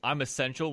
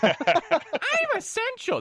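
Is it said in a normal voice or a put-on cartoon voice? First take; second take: normal voice; put-on voice. First: It is said in his normal voice. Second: It is said in a Ralph Wiggum voice.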